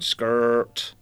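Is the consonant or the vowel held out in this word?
consonant. The r consonant is held and stressed. "you'd find yourself singing the consonant rather than the vowel"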